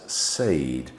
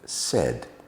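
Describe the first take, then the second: First: The vowel is a long A sound. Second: The vowel is a short E sound. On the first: The speaker calls it wrong. "phonics tell us that we should be making the A sound there" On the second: The speaker calls it right. "We use um, short, uh, short E, eh"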